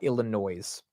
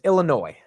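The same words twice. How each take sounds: First: The final S is pronounced. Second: The final S is silent. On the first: The speaker calls it wrong. "I said the S" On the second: The speaker calls it right. "the S is silent"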